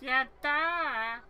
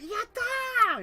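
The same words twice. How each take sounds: First: It is said flatly, without enthusiasm. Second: It is said with lively enthusiasm.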